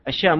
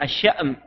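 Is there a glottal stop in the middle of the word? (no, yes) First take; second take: no; yes. First: The middle has a long vowel without a glottal stop. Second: The middle has a glottal stop before the vowel. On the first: The speaker calls it wrong. "يسمونها الشام" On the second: The speaker calls it right. "بتحقيق الهمزة في أو بهمز الألف في منتصفها"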